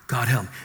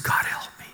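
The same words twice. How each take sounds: First: Said in the usual way. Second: Desperate whispered plea to God; whispered prayer. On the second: Retold or imitated. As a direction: breathe it out, eyes shut, begging. Desperate prayer surrounded by gang.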